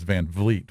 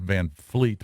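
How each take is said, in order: First: The second word begins with a V sound. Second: The second word begins with an F sound. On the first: The speaker calls it right. "It's [name] with a V" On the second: The speaker calls it wrong. "it sounds like I'm saying [name] with an F"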